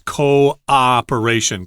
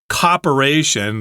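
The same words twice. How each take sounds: First: The first two vowels form two separate syllables. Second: The first two vowels merge into one syllable. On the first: The speaker calls it right. "Make uh, two syllables there" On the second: The speaker calls it wrong. "have one syllable there at the beginning"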